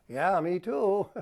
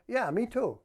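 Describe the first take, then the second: First: Slow, louder, sarcastic drag. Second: Higher, bright sincere agreement; sincere, engaged. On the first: Husband mocking his wife's dinner plans, slow sarcasm. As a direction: stretch it out mockingly. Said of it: "That's sarcasm". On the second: Husband answering his excited wife with real interest. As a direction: really share her excitement. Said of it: "If instead you're saying". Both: Shown as a demonstration.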